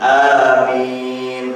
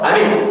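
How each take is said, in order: First: Both vowels are drawn out long. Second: At least one vowel is said short. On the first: The speaker calls it right. "Jadi A-nya panjang, Mi-nya panjang" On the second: The speaker calls it wrong. "Bukan amin atau amin atau amin"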